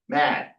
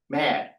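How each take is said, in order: First: The word ends with a d sound. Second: The same.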